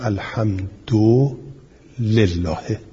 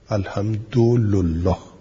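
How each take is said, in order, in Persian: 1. د u دارد و ل i دارد. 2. د u دارد و ل u دارد. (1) "اجماع قراء اینه که بگویم الحمد لله" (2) "و به ضم دال و لام"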